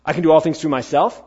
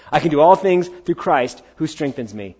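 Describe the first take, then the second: First: "all things through myself" with a doubtful rising tune; wrong version. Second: "through Christ" stated firmly, falling tune; correct version. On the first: Preacher misquotes the verse to the congregation, questioning. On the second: Preacher corrects the misquote for the congregation, firm. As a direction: declare "through Christ who strengthens me" with conviction. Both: Shown as a demonstration.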